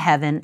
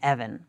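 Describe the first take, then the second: First: It is said like modern 'heaven'. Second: It is said like 'even'. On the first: This is how the word is said in America today. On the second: This is how the word sounded in Shakespeare's English.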